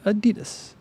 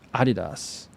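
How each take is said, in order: First: It is said in an American way. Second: It is said in a British way.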